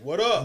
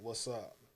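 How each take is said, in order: First: It is said in a hard, hostile tone. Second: It is said in a relaxed, friendly tone. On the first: It signals confrontation. "if I put a certain tone to that" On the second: It is a casual greeting between friends. "If I'm just saying "What's up" to somebody and we cool"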